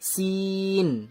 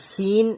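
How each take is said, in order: First: The vowel is stretched out long. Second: The vowel is short and not stretched. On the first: "মদ আছে বলে টান দিয়ে বলবো" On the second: "তো সিন এটাই বলবো"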